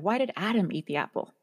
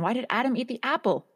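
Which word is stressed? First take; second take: Adam; apple. First: The stress is on Adam. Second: The stress is on apple.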